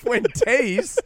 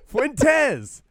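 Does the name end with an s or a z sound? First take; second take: s; z. First: The name ends with a plain s sound. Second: The name ends with a buzzing z sound. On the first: The speaker calls it wrong. "not Fuentes" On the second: The speaker calls it right. "It doesn't have a Z on the end"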